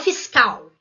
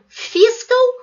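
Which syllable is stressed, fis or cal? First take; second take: cal; fis. First: The stress is on the second syllable. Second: The stress is on the first syllable. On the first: The speaker calls it right. "e um acento no cal" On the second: The speaker calls it wrong. "imaginar um acento no fis"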